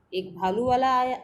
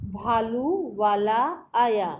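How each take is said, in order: First: Said in the usual way. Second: भालू वाला आया read slowly, syllable by syllable, falling at the end; slow reading aloud. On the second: Shown as a demonstration. Teacher reads to class, slow and clear. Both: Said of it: "चलिए पढ़ना शुरू करते हैं".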